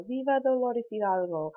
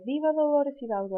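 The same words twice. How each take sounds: First: Said in the usual way. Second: High, raised rallying call; governor's call. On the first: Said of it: "remembers all of the ... Mexican heroes". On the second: Retold or imitated. Teacher voicing the governor's call to the crowd, high. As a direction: proclaim it like the governor. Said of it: "And so he would say".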